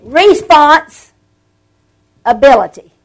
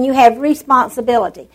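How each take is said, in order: First: Response punched loud, a beat, then ability; preacher's wordplay, Response ... ability; split into two words. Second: Said in the usual way. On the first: Shown as a demonstration. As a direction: pull "Response" and "ability" apart with a pause and weight on both.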